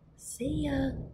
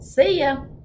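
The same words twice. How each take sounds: First: It is said more softly. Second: It is said at normal loudness.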